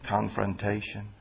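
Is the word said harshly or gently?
gently. The word is said in a gentle, caring tone. The person is being approached with compassion. The speaker calls it right. "Say confrontation"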